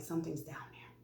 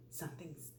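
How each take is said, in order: First: Quick hushed confession; barely audible, retold whisper; embarrassed whisper. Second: Soft but voiced, pointed hint; hushed repeat. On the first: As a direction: whisper it so nobody else hears. Embarrassed confiding to fire crew. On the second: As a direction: spell it out discreetly, keeping it low. Repeats it when asked what's meant.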